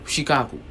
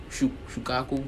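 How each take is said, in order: First: Shikaku, the misspoken first try of the name; wrong name. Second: Shukaku, with a false start on Shu- before the full name; corrected name. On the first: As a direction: say Shikaku as a slip before correcting it. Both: Real, not acted. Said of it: "no, Shikaku".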